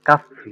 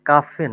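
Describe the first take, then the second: First: The word ends with a long 'ee' vowel. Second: The word ends with a short 'eh' vowel. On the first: The speaker calls it right. "ডফল ই এ আছে না কাফি" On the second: The speaker calls it wrong. "কাফে না"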